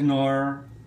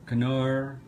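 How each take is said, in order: First: The word starts with an N sound, K silent. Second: The word starts with a sounded K before N. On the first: "I know it says Nor" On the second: "I pronounce it Canor"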